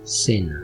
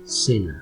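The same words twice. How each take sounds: First: The first consonant sounds like English s. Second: The first consonant sounds like English s.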